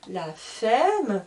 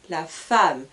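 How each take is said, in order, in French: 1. La voyelle dans femme sonne comme E. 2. La voyelle dans femme sonne comme A. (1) "je ne dis pas la femme" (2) "mais je dis la femme"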